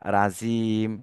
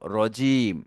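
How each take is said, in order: First: The first vowel is an open 'a' sound. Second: The first vowel is said with rounded lips. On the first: The speaker calls it wrong. "অনেকে বলে রা, ... মারাত্মক ভুল" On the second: The speaker calls it right. "দুই ঠোঁট গোল করে একটু উচ্চারণ করতে হয়"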